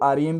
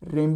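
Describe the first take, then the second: First: It is spelled out as three separate letters. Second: It is one syllable with an 'e' vowel. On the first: "आप इसको आरईएम भी कह सकते हो" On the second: "रेम भी कह सकते हो"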